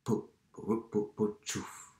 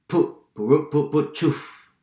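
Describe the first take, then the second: First: Quiet, slow tractor chugging; hushed imitation of a distant motor; soft rhythmic engine purr. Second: High, loud rhythmic tractor puffs; strong, punchy motor imitation; louder engine chugging. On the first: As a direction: putter softly as if far away. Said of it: "un ronroneo suave y rítmico". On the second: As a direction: chug loudly as the tractor nears. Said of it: "El sonido se hizo más fuerte". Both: A narrator's reading.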